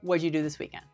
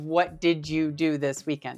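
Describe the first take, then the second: First: 'What did' is squeezed into one quick syllable. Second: Each word is said fully and separately. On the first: "they're going to say it really fast" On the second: "instead of"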